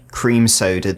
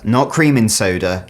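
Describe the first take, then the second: First: "cream soda" as one compound, no "in" between; right version. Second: "cream in soda" with a clear "in" between the words; "cream in soda", the word "in" kept distinct, not "cream soda"; wrong version. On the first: Correcting viewers on the drink's mix, right version said plainly. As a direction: say "cream soda" straight through as one name. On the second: Correcting viewers on the drink's mix, wrong version spelled out. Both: Shown as a demonstration.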